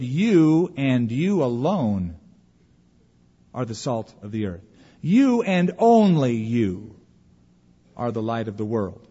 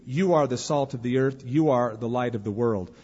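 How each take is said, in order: First: Emphatic plural you, slowed right down; stress on YOU. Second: Said in the usual way. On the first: Shown as a demonstration. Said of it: "It could be better translated". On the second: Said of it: "notice the word you".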